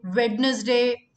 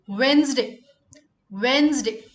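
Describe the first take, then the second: First: Wednesday said slowly as wed-nez-day; Wednesday with the d spoken; spelled-out Wednesday. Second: Wednesday said as wenz-day; Wednesday in two syllables; silent d Wednesday. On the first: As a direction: sound every letter of Wednesday. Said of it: "It's not Wednesday". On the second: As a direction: drop the d in Wednesday. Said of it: "The D is silent here". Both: Shown as a demonstration.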